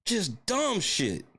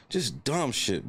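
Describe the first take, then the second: First: High, slow, drawn-out complaint; exasperated groan. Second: Said in the usual way. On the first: Real, not acted. Fan groaning over a dumb loss, high and slow. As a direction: drag it out in disgust.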